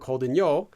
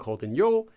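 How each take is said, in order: First: The pitch falls across the whole phrase. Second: The pitch rises on the final syllable. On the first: The speaker is just conveying information. The speaker calls it right. "a falling intonation of the entire form" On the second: The speaker is talking down to the listener. The speaker calls it wrong. "Rising intonation of the final syllable"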